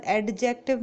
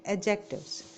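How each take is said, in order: First: "एडजेक्टिव" with a clearly sounded D; wrong pronunciation. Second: "एडजेक्टिव्स" with a silent D; correct pronunciation. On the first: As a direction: say "एडजेक्टिव" as ad-jective, leaning on the D. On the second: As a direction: say "एडजेक्टिव्स" as a-jectives. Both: Shown as a demonstration. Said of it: "ड नहीं बोलेंगे".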